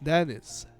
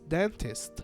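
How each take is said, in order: First: The t after the n is dropped. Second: The t after the n is clearly pronounced.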